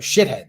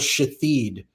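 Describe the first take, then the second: First: The last syllable sounds like head. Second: The last syllable sounds like hid. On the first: The swear word would be censored. The speaker calls it right. "the correct" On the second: The swear word slips past the censors. The speaker calls it wrong. "I could get away with saying that because I mispronounced"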